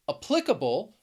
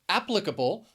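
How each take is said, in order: First: The stress is on the second syllable. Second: The stress is on the first syllable. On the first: "the stress is on the second syllable" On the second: "the stress is on the first syllable"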